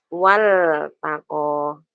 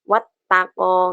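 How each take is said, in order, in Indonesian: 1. L dilafalkan dengan jelas sebelum T. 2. L menyatu dengan bunyi T yang mengikutinya. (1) "Jelas wal taqo" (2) "nggak bisa dibaca wat taqo, nggak boleh"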